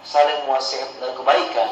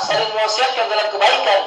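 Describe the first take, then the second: First: Said in the usual way. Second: "saling mewasiatkan dalam kebaikan" said higher, ringing, "kebaikan" falling firmly; preacher calling out the duty of dakwah; raised emphatic line. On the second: Shown as a demonstration. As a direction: proclaim the phrase to the crowd.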